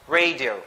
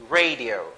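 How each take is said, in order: Both takes have the same delivery.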